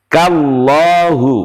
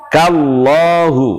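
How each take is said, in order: Both takes have the same delivery.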